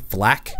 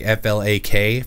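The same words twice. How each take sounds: First: Flak said as one short word, rising at the end. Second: F L A K spelled slowly, one letter at a time. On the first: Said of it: "it sounds like". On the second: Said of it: "it sounds like F L A K". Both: Shown as a demonstration.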